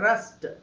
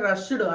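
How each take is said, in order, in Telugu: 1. ఈ పదం t ధ్వనితో ముగుస్తుంది. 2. ఈ పదం d ధ్వనితో ముగుస్తుంది. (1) "ఈడీని ... టాలా పలకాలి" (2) "రష్డ్ అనకుండా"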